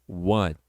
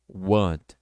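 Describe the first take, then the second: Both takes have the same delivery.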